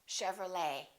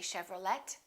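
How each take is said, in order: First: The final T sound is silent. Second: The final T sound is pronounced. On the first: The speaker calls it right. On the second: The speaker calls it wrong.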